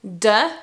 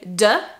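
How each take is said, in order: First: It begins with a d sound. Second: It begins with a d sound.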